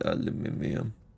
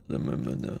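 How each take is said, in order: First: It is said in a British accent. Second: It is said in an American accent.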